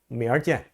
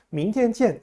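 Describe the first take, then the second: First: The middle syllable is weakened into an er sound. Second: The middle syllable is said fully as tian. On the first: "북경 사람들의 그 북경 사투리로 이런 말도 합니다. tn을 굉장히 약하게 발음하면서 그냥 얼자를 넣어버립니다" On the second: "明天见 하는 말도 있지만"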